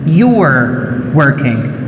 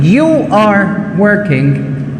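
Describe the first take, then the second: First: Subject and verb merge into one syllable. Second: Subject and verb are said as separate words.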